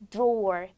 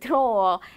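First: American accent, with the final r sounded. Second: British accent, with the final r dropped. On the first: "제가 방금 발음은 미국식 발음으로 제가 들려드렸어요" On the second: "사실 R 발음이 들리지 않았어요. 그 이유는 영구식이기 때문에"

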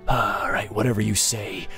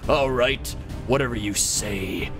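First: It is said in an ordinary, casual voice. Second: It is said in an epic, dramatic voice.

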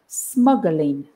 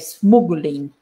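First: The first vowel is the 'up' sound. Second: The first vowel is not the 'up' sound. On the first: The speaker calls it right. "It's like a, it's a sound, smuggling. Like up or mother" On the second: The speaker calls it wrong. "you want to say smuggling, but it's not smuggling"

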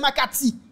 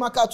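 First: The name ends with an 'ee' vowel. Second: The name ends with an 'oo' vowel. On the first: The speaker calls it right. "c'est Makati" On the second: The speaker calls it wrong. "bandi pas qu'il est Makatu"

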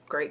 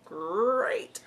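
First: It is said in her normal voice. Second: It is said in a Tony the Tiger voice.

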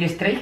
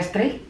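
First: The word is said with Spanish pronunciation. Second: The word is said with English pronunciation. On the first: The speaker calls it wrong. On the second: The speaker calls it right.

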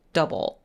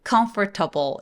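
First: The middle vowel is dropped, giving three syllables. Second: The word is said with all four syllables. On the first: The speaker calls it right. "사실은 중간에 있는 O가 사라져요" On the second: The speaker calls it wrong. "이렇게 네 개의 소리가 날 것 같지만"

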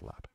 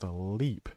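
First: The vowel is short, like in 'step'. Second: The vowel is long, like in 'keep'. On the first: This is the actual local pronunciation. The speaker calls it right. "it's called Lep" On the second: This is the mistaken pronunciation. The speaker calls it wrong. "I thought it was called Leap"

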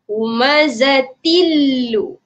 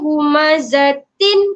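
First: The n merges into the following l sound. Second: The final n sound is clearly pronounced. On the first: The speaker calls it right. "dia suruh masukkan ke huruf yang selepas tu" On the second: The speaker calls it wrong. "Jangan sebut tin lagi... tak nak, hilangkan"

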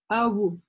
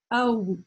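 The two takes are said the same way.

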